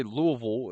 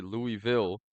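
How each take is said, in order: First: "Louisville" slurred as LOO-uh-vul; local pronunciation. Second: "Louisville" as LOO-ee-vil; non-local pronunciation. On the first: Demonstrating the friend's hometown pronunciation, "Louisville" as LOO-uh-vul. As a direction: say "Louisville" the local way, middle reduced to uh. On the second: Contrasting with the friend's local way, "Louisville" as LOO-ee-vil. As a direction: say "Louisville" with a clear ee in the middle. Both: Shown as a demonstration. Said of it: "you don't say Louisville".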